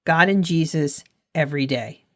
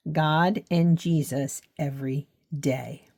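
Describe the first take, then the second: First: Said in the usual way. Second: Deliberate repetition. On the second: Real, not acted. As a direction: give each word of "God and Jesus every day" its own weight. Repeats the reminder word by word.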